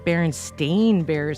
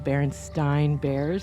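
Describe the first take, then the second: First: The last part of the name rhymes with 'main'. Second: The last part of the name rhymes with 'mine'. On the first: This is how everyone else says it now. "what? Stain Bears?" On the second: This is how it was remembered from childhood. "it's pronounced Stein, like you would, you know, the famous Einstein"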